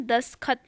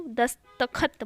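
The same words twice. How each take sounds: First: "दस्तखत" as das-khat, no ta; wrong dropped syllable. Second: "दस्तखत" as das-ta-khat; correct middle ta. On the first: Teacher quoting the error to students, mispronounced. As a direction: drop the middle ta of "दस्तखत". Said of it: "नहीं बोलते उसको". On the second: Teacher correcting the word, separated syllables. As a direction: sound every syllable of "दस्तखत". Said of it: "दस्तखत बोलते हैं". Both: Shown as a demonstration.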